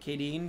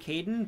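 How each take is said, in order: First: The name ends with a long 'deen' sound. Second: The name ends with a short 'den' sound. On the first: This follows how the name looks written. "but I pronounce it Kadeen because it looks like that" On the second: This is probably the real pronunciation. "I know it's probably Caden"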